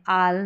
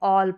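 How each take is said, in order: First: The vowel is an open 'ah' sound. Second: The vowel is a rounded 'aw' sound. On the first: The speaker calls it wrong. "आल नहीं पढ़ते हैं" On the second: The speaker calls it right. "A double L को ऑल पढ़ते हैं"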